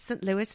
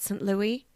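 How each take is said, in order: First: The name is said the American way. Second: The name is said a non-American way. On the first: The speaker calls it right. "That's how Americans say Saint Louis" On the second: The speaker calls it wrong. "not Saint Louis"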